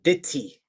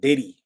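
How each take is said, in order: First: The middle consonant is a crisp t sound. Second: The middle consonant is a soft d-like flap. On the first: The speaker calls it right. "you gotta pronounce it right" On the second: The speaker calls it wrong. "not Diddy"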